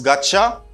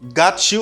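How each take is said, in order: First: The words blend into one reduced form. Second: Both words are said fully and separately.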